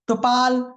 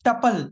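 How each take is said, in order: First: The second syllable has a long aa vowel. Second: The first syllable has a short uh vowel. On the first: The speaker calls it wrong. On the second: The speaker calls it right.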